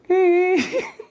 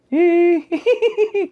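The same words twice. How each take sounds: First: Short, high ghostly whine; high thin mock sob; imitated crying. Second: High cackling titter; crying turned into a high giggle, imitated; imitated ghostly giggle. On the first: Storyteller imitating the crying on the radio, high whine. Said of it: "Lama-lama dari tadinya nangis". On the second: Storyteller imitating the crying that turns to laughter, high cackle.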